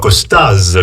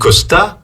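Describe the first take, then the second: First: The name ends with an audible z sound. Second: The name ends on the vowel, no z sound.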